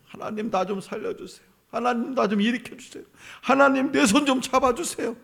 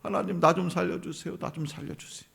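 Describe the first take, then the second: First: Soft begging that climbs higher; plead, getting more urgent; the people crying out to God, pleading ever higher; rising plea. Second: Soft, pleading prayer; a quiet acted cry to God; hushed plea. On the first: Pretend. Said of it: "막 부르짖었어요". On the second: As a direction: beg quietly for help. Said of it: "막 부르짖어요".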